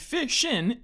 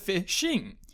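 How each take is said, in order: First: The word ends without the final g sound. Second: The word ends with the final g sound. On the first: "Drop your G's" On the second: "instead of fishing"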